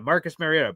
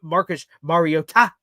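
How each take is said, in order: First: The T near the end is soft. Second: The T near the end is strongly emphasized. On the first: This is how people had been saying it. "I thought Marcus Mariota" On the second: This is the new way it is being said. "extra emphasizing the T at the end"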